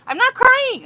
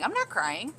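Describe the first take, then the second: First: High, loud laughing protest; playful denial. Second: Said in the usual way. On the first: Real, not acted. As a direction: squeal the denial back at them. But not if you cry again.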